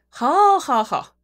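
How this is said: It sounds sarcastic and mocking. The speaker does not really approve. "听起来就非常的阴阳怪气儿"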